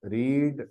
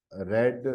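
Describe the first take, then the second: First: रीड with a long ee, like reed; रीड pronounced reed for the base form; present-tense read. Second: रेड with a short e, like red; रेड pronounced red for the past forms; past-tense read. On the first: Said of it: "तीनों forms एक ही हैं". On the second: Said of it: "बस इन दोनों का pronunciation difference है". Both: Shown as a demonstration.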